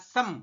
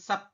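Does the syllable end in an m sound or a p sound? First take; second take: m sound; p sound. First: The syllable ends with an m sound. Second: The syllable ends with a p sound. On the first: The speaker calls it right. "Dibacanya adalah sem" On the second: The speaker calls it wrong. "bukan sep"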